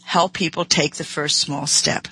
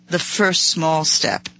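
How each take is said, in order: First: Said in the usual way. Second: "The first small step" said slowly, each word weighted, FIRST stressed; slow emphatic repeat. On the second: Shown as a demonstration. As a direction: lean hard on "first small step", slowing right down. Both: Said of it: "The emphasis here is".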